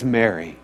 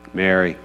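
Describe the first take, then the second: First: Jesus gently calling Mary; tender call. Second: Softly and lower, saying her name with love; tender name call. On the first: Retold or imitated. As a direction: lower and softer, saying her name with love. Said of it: "And when Jesus says". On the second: Shown as a demonstration. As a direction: call her name gently, like someone who knows her. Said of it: "She's heard Mary said that way before".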